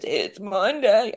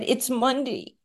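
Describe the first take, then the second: First: Slow, effortful imitation of someone barely able to talk; mimicked post-ventilator croak, drawn out; imitating labored speech. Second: Said in the usual way. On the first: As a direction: drag the words out as if talking is a struggle. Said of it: "he could hardly talk". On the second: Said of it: "but I don't wanna imitate that".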